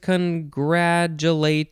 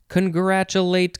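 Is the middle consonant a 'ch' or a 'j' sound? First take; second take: j; ch. First: The middle consonant is a 'j' sound. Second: The middle consonant is a 'ch' sound. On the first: "You could say ch or j in the middle" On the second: "You could say ch or j in the middle"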